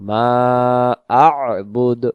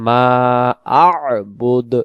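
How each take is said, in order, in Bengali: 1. 'ma' আর 'bud'-এর মাঝে গলার শব্দটি রাখা হয়। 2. 'ma' আর 'bud'-এর মাঝে গলার শব্দটি রাখা হয়।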